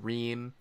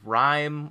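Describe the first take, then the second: First: The vowel sounds like 'ee'. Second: The vowel sounds like 'eye'. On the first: The speaker calls it right. "It's a ream" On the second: The speaker calls it wrong. "Retzer says rhyme, which is wrong"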